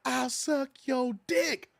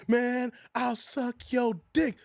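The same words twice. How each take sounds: First: Slow mock yell on dick; hammed-up repeat for a deaf listener; drawn-out mock shout; repeated louder. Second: Slow, drawn-out offer; mock come-on, stretched long; lightly voiced slow proposition; slow movie quote. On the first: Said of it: "I said". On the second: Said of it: "What, man? I said".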